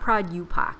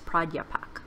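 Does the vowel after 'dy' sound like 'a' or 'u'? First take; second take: u; a. First: The vowel after 'dy' sounds like 'u'. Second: The vowel after 'dy' sounds like 'a'. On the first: The speaker calls it wrong. "you keep putting a U in there. It's not Pradyupak" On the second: The speaker calls it right. "It's Pradyapak"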